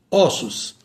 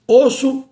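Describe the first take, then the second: First: "ossos" with open ó, falling. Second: "osso" with closed ô, pitched high. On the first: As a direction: say "ossos" as Ó-ssos. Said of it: "passa para o timbre aberto". ("ossos" com ó aberto, em tom descendente) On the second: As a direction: say "osso" as Ô-sso, higher. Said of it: "o O permanece com o timbre fechado". ("osso" com ô fechado, em tom mais alto) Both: Shown as a demonstration.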